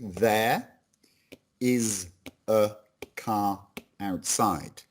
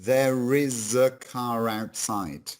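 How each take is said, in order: First: Each word is said separately and slowly. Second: The words run together quickly without breaks. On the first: "if I say these individually" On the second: "if we say that quickly"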